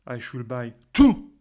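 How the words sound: The stress is on the word two. Even one ticket would be too many. "si j'insiste sur le mot to"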